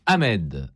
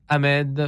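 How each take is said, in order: First: Said in the usual way. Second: Calling out higher. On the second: Real, not acted. Host calling again for a guest on the phone, raised call. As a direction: call the name up high across the line.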